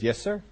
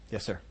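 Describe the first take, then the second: First: Higher "Yes, sir" with a rising end; questioning reply. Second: Low, very soft "Yes, sir"; submissive reply. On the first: Believer answering God's surprising order, questioning. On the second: Believer accepting God's order, meekly submissive. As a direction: drop "sir" quietly, giving in. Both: Acted.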